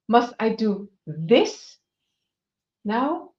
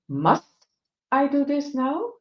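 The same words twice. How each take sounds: First: The stress falls on the word this. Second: The stress falls on the word must.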